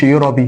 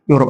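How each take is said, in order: First: يوروبي with a sounded ee after the b; wrong final vowel. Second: يوروب ending right on the p; no vowel after the last consonant of يوروب; silent final e. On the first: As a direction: voice the last e in يوروبي, as the mistake. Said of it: "ما أقولش يوروبي". (يوروبي بنطق الإي في الآخر) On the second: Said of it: "في آخر الكلمة ما بتنطقش". (يوروب من غير إي في الآخر) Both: Shown as a demonstration.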